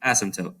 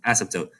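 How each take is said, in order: First: The P sound is left out. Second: The same.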